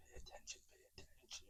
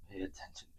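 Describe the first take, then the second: First: Fading whisper. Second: Hushed warning. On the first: Narrator warning viewers, trailing off in a whisper. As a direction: pay attention dying away to a whisper. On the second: Repeats command, voice fading out. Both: Acted.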